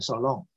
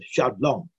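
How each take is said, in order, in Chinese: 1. 听起来像英语短语 so long。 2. 听起来像希伯来语单词 shalom。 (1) "你练错就变成shalom" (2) "这是shalom"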